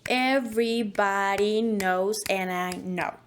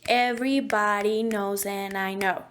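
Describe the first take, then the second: First: It is said with a clear, exaggerated beat. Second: It is said quickly with a rapid beat. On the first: "make it clearer and a little bit exaggerated" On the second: "If we want to go a little bit faster"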